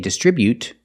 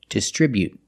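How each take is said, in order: First: The final T is fully released. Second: The final T is stopped, not released. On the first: "You don't have to release the T. You can, you can say distribute" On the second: "You can make a stop T and say distribute. It's more natural"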